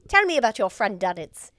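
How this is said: It is said in a put-on British accent.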